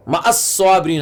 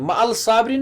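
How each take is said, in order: First: मअस साबिरीन with the l swallowed into a double s; assimilated sun letter. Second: मअल साबिरीन with a clear l before साबिरीन; wrong reading shown. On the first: Teacher modelling the right reading मअस साबिरीन, doubled s. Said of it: "मअल साबिरीन नहीं पढ़ते हम". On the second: Teacher showing the wrong reading मअल साबिरीन, l pronounced. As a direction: sound the l in मअल साबिरीन as the mistake. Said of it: "नहीं पढ़ते हम". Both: Shown as a demonstration.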